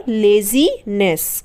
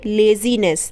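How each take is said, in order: First: laziness said very slowly, syllable by syllable; slow pronunciation. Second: Said in the usual way. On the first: Shown as a demonstration. Teacher modelling laziness slowly for pupils. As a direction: stretch out laziness le-zi-ness slowly. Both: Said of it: "क्या पढ़ेंगे?".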